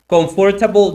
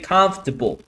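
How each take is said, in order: First: The middle 'or' sound is fully pronounced. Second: The middle 'or' sound is dropped. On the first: The speaker calls it wrong. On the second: The speaker calls it right. "esta O R normalmente la omiten, no se pronuncia"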